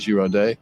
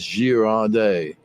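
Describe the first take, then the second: First: The name is said at a normal pace. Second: The name is said slowly and carefully. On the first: This is the speaker's own way of saying it. "I guess I'm going to say it Girardet and see what happens" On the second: This is how French speakers say it. "The French pronunciation I got on it is that they pronounce it quite slowly"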